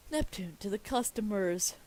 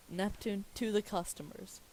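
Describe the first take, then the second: First: Loud, emphatic announcement; proclaiming. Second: Said in the usual way. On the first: Acted. Reader announces Neptune addressing the customers, proclaiming loudly. First take of script direction.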